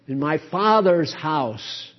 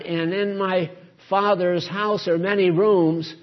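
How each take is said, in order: First: "Father's" hit hard, the rest falls away; emphasis on "Father's", falling tune; stress on Father's. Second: "rooms" stretched out as the key word; the old reading, weight on "rooms"; stress on rooms. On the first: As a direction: push the word "Father's". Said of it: "emphasis is on the Father". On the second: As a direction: lean on "rooms" at the end. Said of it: "You know what we fastened on? The rooms". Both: Shown as a demonstration.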